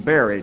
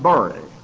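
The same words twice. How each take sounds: First: The vowel does not rhyme with 'hurry'. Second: The vowel rhymes with the vowel in 'hurry'. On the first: This is how the listeners say it. "Bury to you" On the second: This is how people in California say it. "I'll make it rhyme by saying it like they say in Californication"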